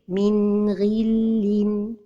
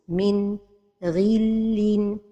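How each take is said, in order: First: The n is short and flows smoothly on. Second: There is a pause after the n. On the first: The speaker calls it right. "la prononciation correcte est" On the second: The speaker calls it wrong. "c'est la pause"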